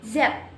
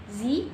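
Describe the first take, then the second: First: "Z" said "zed", rhyming with bed; name the letter "Z" the Canadian way, "zed". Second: "Z" said "zee", rhyming with see; name the letter "Z" the American way, "zee". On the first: Student showing how Canadians name the letter, Canadian zed. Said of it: "Canadians pronounce it as". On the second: Student showing how Americans name the letter, American zee. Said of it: "Americans pronounce the letter Z". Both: Shown as a demonstration.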